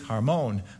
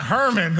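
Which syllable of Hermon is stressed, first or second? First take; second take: second; first. First: The stress is on the second syllable. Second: The stress is on the first syllable. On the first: The speaker calls it right. "So the syllable's on the second" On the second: The speaker calls it wrong. "It's not Hermon"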